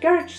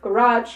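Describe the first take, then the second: First: The word is said the British way. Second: The word is said the American way. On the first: "sounds so more American, but it's actually British" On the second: "it's like American"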